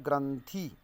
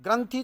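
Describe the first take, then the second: First: ग्रंथि drawn out to end in long 'ee'; long final vowel. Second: ग्रंथि ending in short 'i'; short final vowel. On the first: Teacher contrasting two words, ग्रंथि with long final 'ee'. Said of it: "यहाँ पर ग्रंथि मात्रा छोटी है". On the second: Teacher explaining the word for knot, ग्रंथि with short final 'i'. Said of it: "छोटा जो है". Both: Shown as a demonstration.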